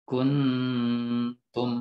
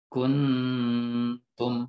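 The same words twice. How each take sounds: First: The hidden nasal is made close to n. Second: The same.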